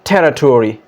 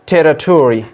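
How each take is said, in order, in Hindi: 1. American उच्चारण, अंत पूरा 'tory' जैसा बोला गया। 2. अमेरिकन उच्चारण, अंत पूरा 'tory' जैसा बोला गया।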